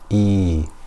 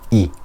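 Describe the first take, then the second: First: The vowel is long, two beats long. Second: The vowel is short, one beat long. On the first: "Two harakas is the time it takes me to put my finger up and down" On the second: "one haraka is the amount of time it takes me to pronounce a fatha, dhamma or kasra"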